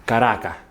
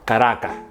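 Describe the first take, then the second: First: The word ends with an audible breath. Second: The word ends with an audible breath.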